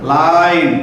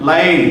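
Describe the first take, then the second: First: लाइन said the Hindi way, as la-rain; Hindi pronunciation. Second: Said in the usual way. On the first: Shown as a demonstration. Teacher showing class how लाइन is said in Hindi, la-rain. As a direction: stretch लाइन into la-rain, desi style. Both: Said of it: "Hindi pronunciation".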